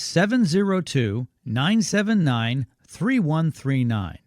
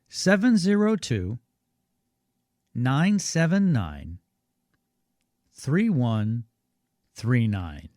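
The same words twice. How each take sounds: First: The number is said at normal speed. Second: The number is said more slowly.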